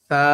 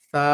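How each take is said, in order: First: The letter starts with a soft, thin th. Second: The same.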